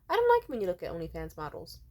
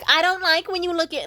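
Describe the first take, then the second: First: It is said in a calm, gentle tone. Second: It is said in a nagging, harsh tone.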